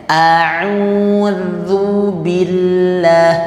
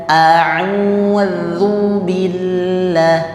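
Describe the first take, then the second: The two takes are said the same way.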